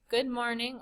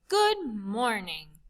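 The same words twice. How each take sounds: First: It is said flatly with little energy. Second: It is said brightly with lots of energy.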